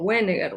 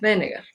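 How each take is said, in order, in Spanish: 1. El nombre empieza con un sonido W parecido al inglés. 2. El nombre empieza con un sonido B corto. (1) "y no Wegener" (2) "la W en varios países europeos se pronuncia como B corta, entonces Wegener"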